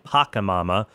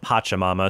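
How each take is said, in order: First: The second syllable starts with a k sound. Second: The second syllable starts with a ch sound. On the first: The speaker calls it wrong. "on the previous episode, I was saying Pacamama" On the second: The speaker calls it right. "it turns out it's pronounced Pachamama"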